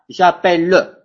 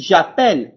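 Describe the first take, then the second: First: J'appelle with an extra "-leu" syllable at the end; sounded final E. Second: J'appelle ending cleanly on the L sound; silent final E. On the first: French teacher showing what not to say, j'appelle with sounded final e. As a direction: wrongly voice the last e of j'appelle, "ja-pel-leu". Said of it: "je ne dis pas j'appelle". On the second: French teacher showing students the correct form, j'appelle with silent ending. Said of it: "Je dis j'appelle". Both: Shown as a demonstration.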